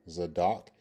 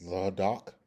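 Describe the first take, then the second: First: Zadok with a clear z opening; pronunciation demo. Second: Zadok with th in place of the z; alternative pronunciation. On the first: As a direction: say Zadok as "zuh-DOK". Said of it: "that is pronounced Zadok". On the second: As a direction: say Zadok as "thadok", rising at the end. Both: Shown as a demonstration.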